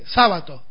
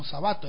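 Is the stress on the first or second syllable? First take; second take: first; second. First: The stress is on the first syllable. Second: The stress is on the second syllable. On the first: This is how it is said in Italian. "Ahí sería en italiano" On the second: This is the form adapted to Spanish spelling. "en grave"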